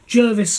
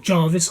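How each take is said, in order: First: The first vowel sounds like 'er' in 'her'. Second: The first vowel sounds like 'ar' in 'car'. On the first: "it looks like it's Jervis" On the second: "I think it's pronounced Jarvis"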